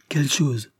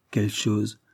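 First: Mildly mocking repeat of Quelle chose; ironic echo. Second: Said in the usual way. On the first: Sophie mocking Ravensbird's question, ironic. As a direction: toss back Quelle chose with a light ironic lift. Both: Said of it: "Répéta Sophie ironiquement".

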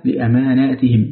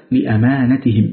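First: لأماناتهم with long aa after both m and n; plural reading. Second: لأمانتهم with short a after the n; singular reading. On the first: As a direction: stretch both vowels in لأماناتهم. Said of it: "بالجمع". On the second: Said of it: "بالإفراد". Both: Shown as a demonstration.

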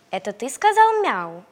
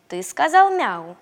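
First: Puppy voice. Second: Stern. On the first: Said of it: "спросил щенок петуха". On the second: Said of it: "строго спросил его щенок". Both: Acted.

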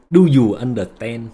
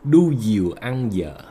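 First: Said in the usual way. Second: Slow Vietnamese-accented pidgin English; broken English. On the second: Shown as a demonstration. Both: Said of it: "Nói tiếng Anh bồi".

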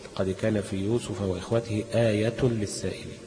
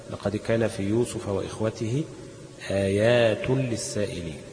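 First: Slow recitation, آية without a second long aa; singular reading. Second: Slow, with long aa twice in آيات; plural reading. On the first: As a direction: say آية with a short vowel after the ي. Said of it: "بالإفراد". (تلاوة بالإفراد، آية بدون ألف بعد الياء) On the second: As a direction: recite slowly, stretching the second alif of آيات. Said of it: "بالجمع". (تلاوة بالجمع، مد الألف الثانية في آيات) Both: Shown as a demonstration.

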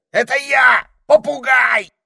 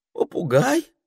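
First: Loud high shout. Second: High rising unsure question; asking back. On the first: Parrot shouting his name at the ermine. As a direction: bellow who you are. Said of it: "закричал попугай". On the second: Ermine asking back with eyes shut, unsure. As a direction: ask it back in disbelief. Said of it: "переспросил горностай". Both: A narrator's reading.

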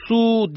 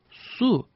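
First: Imitated toddler yelling, higher and louder; a child shouting "Su!" at mom. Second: Put-on mother showing her child to ask "Su" nicely; calm request. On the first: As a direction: bark the word "Su!" like a demanding toddler. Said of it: "diye bağırdı". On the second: Shown as a demonstration. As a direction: model "Su" kindly for a toddler. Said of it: "Bak şu şekilde söyle".

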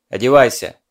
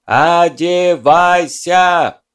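First: Loud barked order; shouting. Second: Slow, drawn-out bellow, much louder; bellowing through cupped hands. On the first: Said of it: "проорал ещё раз". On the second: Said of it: "сложил ладони в рупор и проорал". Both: A narrator's reading.

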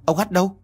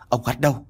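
First: Urgent, frightened demand; panicked. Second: Said in the usual way. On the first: Acted. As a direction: repeat the question higher, in alarm. (trưởng thôn hốt hoảng hỏi dồn) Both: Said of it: "hốt hoảng".

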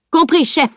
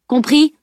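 First: A higher, louder mock-military reply. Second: A higher, louder sharp question; stern check. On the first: Boy mocking his stern tutor, cheeky parroting. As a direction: parrot it back, cheeky salute. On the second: Tutor demanding the boy understood, stern. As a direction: demand an answer, teacher-like. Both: A narrator's reading. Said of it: "se moqua Salim".

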